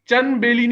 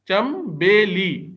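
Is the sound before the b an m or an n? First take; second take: n; m. First: The sound before b is an n. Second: The sound before b is an m. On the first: The speaker calls it wrong. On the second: The speaker calls it right.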